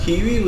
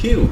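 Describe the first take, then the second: First: The word ends with an extra ee sound. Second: The word ends right after the oo sound. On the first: The speaker calls it wrong. "আমরা কিউই উচ্চারণ করি না" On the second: The speaker calls it right. "এটা হয় কিউ"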